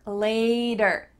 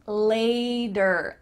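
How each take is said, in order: The two takes are said the same way.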